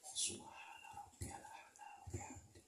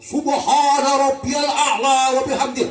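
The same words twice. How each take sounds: First: The phrase is whispered softly. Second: The phrase is shouted loudly.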